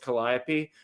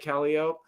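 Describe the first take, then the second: First: It uses the standard outside pronunciation. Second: It uses the local neighborhood pronunciation. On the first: This is how people elsewhere say it. The speaker calls it right. "Other people know it's Calliope" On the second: This is how people in the neighborhood say it. The speaker calls it wrong. "people who live in that neighborhood say Calliope"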